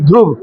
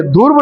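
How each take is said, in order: First: ध्रुव said "dhruv", r fused with dh, short and low; crisp "dhruv" with the r matra on ध; correct pronunciation. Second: ध्रुव said as "dhurv", vowel before the r; the students' "dhurv" version of ध्रुव; wrong pronunciation. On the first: Teacher shows students the right ध्रुव, lower and firm. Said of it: "ध में र की मात्रा". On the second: Teacher repeats the wrong ध्रुव to warn students. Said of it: "ध्रुव नहीं". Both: Shown as a demonstration.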